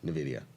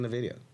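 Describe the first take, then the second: First: It begins with a plain n sound. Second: It begins with the letter name en. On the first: It is the usual, boring way to say it. "it's boring" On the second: It is the speaker's own preferred way. "If you say the letter N instead of the sound N"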